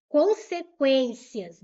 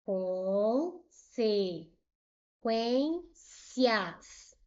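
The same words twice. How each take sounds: First: Loud, slow "Consequências", said as a whole word; loud emphatic word. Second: "Consequências" very slowly as con-se-quên-cias; long pauses between each syllable of "Consequências". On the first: Teacher returning to the example for students, loud emphatic word. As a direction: put "Consequências" out firmly and loudly. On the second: Teacher separating the word for students, "Consequências" slowly syllable by syllable. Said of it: "Vou separar". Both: Shown as a demonstration.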